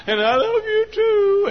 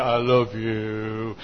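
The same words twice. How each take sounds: First: Very high, slow falsetto reply; mock lovestruck woman. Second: Very low, slow, soft croon; mock lovestruck man. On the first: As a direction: imitate a besotted bride in a high coo. Mimics honeymooner, woman's part. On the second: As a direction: imitate a besotted groom deep and drawn out. Mimics honeymooner, man's part.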